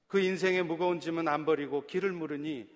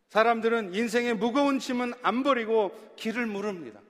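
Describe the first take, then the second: First: Said in the usual way. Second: 무거운 stressed, a rising preacher's voice; 무거운 said with weight, voice lifted; emphatic preaching. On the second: Acted. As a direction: lean hard on 무거운 as the sermon builds.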